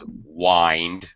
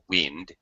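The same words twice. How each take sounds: First: The vowel is a long i sound. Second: The vowel is a short i sound. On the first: It is the verb, to turn or twist. "The verb has a long I" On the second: It is the noun, moving air. "the noun has a short I"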